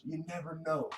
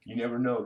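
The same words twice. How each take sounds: First: Higher and softer, an eerie hint; playful ominous aside to viewers; mysterious tease. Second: Said in the usual way. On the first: Shown as a demonstration. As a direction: hush it like a spooky secret, pitched up. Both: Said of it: "You never know, guys".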